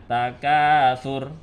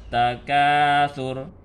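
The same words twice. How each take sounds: The two takes are said the same way.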